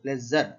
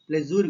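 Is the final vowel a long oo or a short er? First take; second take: short er; long oo. First: The final syllable has a short er vowel. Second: The final syllable has a long oo vowel. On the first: The speaker calls it right. "ప్లెజర్ అని" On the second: The speaker calls it wrong. "ప్లెజూర్ కాదు"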